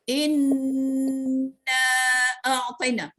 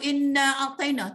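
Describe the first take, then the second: First: The n is held with a nasal hum. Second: The n is short with no nasal hum. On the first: The speaker calls it right. "baru betul gitu" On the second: The speaker calls it wrong. "tak ada. Ujung lidah temu ngalang-ngaling keras saja"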